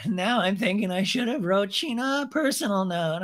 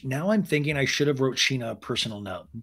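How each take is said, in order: First: High-pitched mocking impression; mock ice-cold girl. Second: Said in the usual way. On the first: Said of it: "the cold ice school girl".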